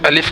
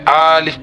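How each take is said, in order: First: The first vowel is short. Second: The first vowel is drawn out long. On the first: The speaker calls it right. "अलिफ के बजाय" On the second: The speaker calls it wrong. "अलिफ के अलिफ को खींचकर पढ़ना"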